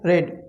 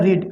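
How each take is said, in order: First: The word has a short 'e' vowel. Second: The word has a long 'ee' vowel. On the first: It is the past participle form. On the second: It is the present form.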